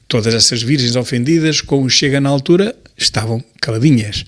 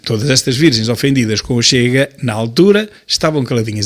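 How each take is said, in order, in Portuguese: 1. A construção é confusa e o sentido fica pouco claro. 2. A construção é clara e agrupa bem as palavras. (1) "quando não se lê bem, o sentido fica uh, difuso" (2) "Assim é que se lê"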